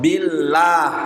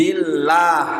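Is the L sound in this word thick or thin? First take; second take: Thin; Thin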